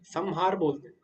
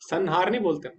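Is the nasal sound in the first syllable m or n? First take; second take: m; n. First: The first syllable ends with an m sound. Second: The first syllable ends with an n sound. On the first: The speaker calls it right. "संहार में माँ हो जा रहे" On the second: The speaker calls it wrong.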